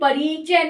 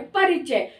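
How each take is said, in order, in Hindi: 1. 'r' के बाद का स्वर लंबा है। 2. 'r' के बाद का स्वर छोटा है। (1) "ना कि परिचय नहीं हम बोल रहे" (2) "बोलने में ही छोटी आवाज आ रही है"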